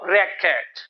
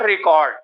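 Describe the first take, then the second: First: It is pronounced as the noun form. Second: It is pronounced as the verb form. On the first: It names a thing rather than an action. The speaker calls it right. "if we use it as a noun will pronounce it record" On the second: It names an action rather than a thing. The speaker calls it wrong. "not record"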